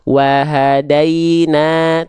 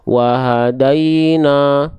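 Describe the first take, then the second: First: It is said warmly, with a smile. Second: It is said sternly, without a smile. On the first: The speaker calls it right. "Kita analogikan sambil senyum. ... Nggak jutek kan?" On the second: The speaker calls it wrong. "Bukan wahadaina"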